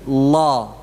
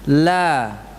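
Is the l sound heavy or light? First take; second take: heavy; light. First: The l is heavy, with the tongue root raised. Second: The l is light, with the tongue root low. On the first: "Pangkal lidahnya diangkat" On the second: "Kalau lam tipis gimana?"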